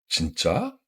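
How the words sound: It sounds sincerely surprised. Is that really true? "la surprise sincère"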